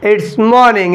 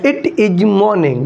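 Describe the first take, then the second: First: It is contracted to one syllable, its. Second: It is said as two full words. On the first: This is the casual spoken form. "Short में बोलते हैं इट्स" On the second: This is the standard full form. "बस होता है इट इज morning"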